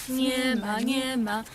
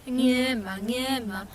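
Both takes have the same delivery.

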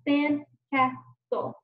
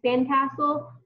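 First: Slow "Sandcastle" in three beats, sand, cas, tle; "Sandcastle" tapped out syllable by syllable; split into syllables. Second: Said in the usual way. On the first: Shown as a demonstration. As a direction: pause after each syllable of "Sandcastle". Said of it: "watch me as I figure it out". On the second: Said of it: "looks like a sandcastle".

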